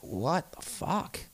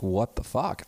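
First: High, slow and drawn out in disbelief; stunned disbelief. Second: Said in the usual way. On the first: Retold or imitated. Hearing his old radio shows, slow aghast disbelief. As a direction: let it rise, slow and aghast. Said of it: "and I'm just like". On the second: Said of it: "Just like, really".

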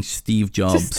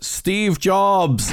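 First: Said in the usual way. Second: High, drawn-out meme shout; mock shout. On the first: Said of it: "you should just start yelling". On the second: Acting out the meme's punchline, mock shouting. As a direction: imitate a shout, pitch leaping up without much volume. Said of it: "And he just shouts".

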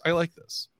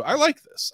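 First: Said in the usual way. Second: High, rising delight. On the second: Real, not acted. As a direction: squeal it with glee. Delighted reaction to theory.

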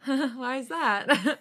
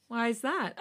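First: Slow, laughing through the words; nervous laugh. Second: Said in the usual way. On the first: Acted. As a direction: giggle it out nervously. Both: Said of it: "I laugh nervously".

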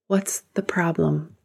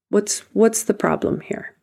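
First: Whispered, soft "What's the problem?"; a quiet whispered aside; hushed question. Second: Said in the usual way. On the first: Acted. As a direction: ask it under your breath, almost to yourself. Coach questions the anxious self.

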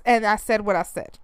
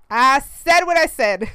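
First: Said in the usual way. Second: Slow, louder, sassy repeat; sassy insistence. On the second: Real, not acted. Mom standing by her opinion, slow sassy emphasis. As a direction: dig in your heels, slow and loud.

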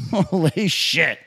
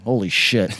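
First: Slow, drawn-out exclamation; slow stunned. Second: Said in the usual way. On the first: Real, not acted. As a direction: stretch it out in disbelief. Repeated slowly, stretched.

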